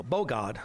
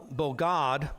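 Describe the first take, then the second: First: "bogad" with the accent on its first syllable; stress on first syllable. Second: Said in the usual way. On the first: Shown as a demonstration. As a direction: lean on the "bo" of "bogad". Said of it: "accent on the first syllable". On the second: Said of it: "No, bogad".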